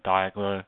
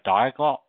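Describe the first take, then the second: First: The final T sound is left out. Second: The final T sound is pronounced.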